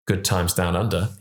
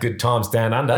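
First: It has only a faint Australian accent. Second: It has a clear, strong Australian accent. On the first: "There was like a hint of it in there" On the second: "There you go"

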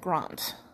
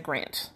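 First: The vowel is long and broad, as in car. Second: The vowel is short and flat, as in cat.

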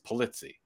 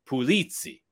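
First: The name has an American English pronunciation. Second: The name has an Italian pronunciation. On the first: "the Americanization of my name is Pulizzi" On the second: "when you go over to Sicily, Marsala, Sicily, it's Pulizzi"

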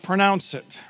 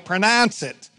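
First: The word is said with a standard pronunciation. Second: The word is said with a Pittsburgh pronunciation. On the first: "Not pronounce it" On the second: "I grew up in Pittsburgh, born and raised, so I pronounce it"

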